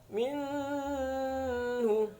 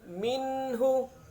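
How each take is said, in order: First: The n sound is blurred, not clearly pronounced. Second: The n sound is pronounced clearly and distinctly. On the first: The speaker calls it wrong. "tidak boleh dibaca minhu" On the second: The speaker calls it right. "yang benar harus jelas nun sukunnya"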